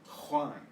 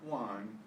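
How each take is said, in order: First: It starts with a breathy h sound. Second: It starts with an English j sound. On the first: The speaker calls it right. "the J is always pronounced the same. Ha" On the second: The speaker calls it wrong. "Not Juan"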